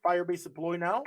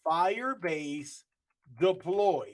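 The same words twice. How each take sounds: First: Said in the usual way. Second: Slow, deliberate dictation of the command; command read out slowly. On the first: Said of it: "If I hit Firebase deploy now". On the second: Shown as a demonstration. Teaching the class to type the command, slow and deliberate.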